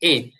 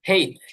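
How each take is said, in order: First: The letter name begins with a vowel sound. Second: The letter name begins with an h sound. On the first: "এটাকে আমরা এইচ বলি" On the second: "আরেকটা উচ্চারণ আছে সেটা হচ্ছে হেইচ, হয় একার হে"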